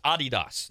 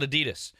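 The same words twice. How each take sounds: First: "Adidas" stressed on the first syllable, AH-dee-das; original pronunciation. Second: "Adidas" stressed in the middle, uh-DEE-dus; common American pronunciation. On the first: Host showing the intended name, "Adidas" as AH-dee-dahs. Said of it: "not supposed to be pronounced". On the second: Host showing the common name, "Adidas" as uh-DEE-dus. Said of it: "not Adidas". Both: Shown as a demonstration.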